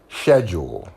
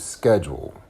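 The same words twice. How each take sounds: First: It is said in a British accent. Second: It is said in an American accent. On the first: "a British person might be saying" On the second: "as opposed to"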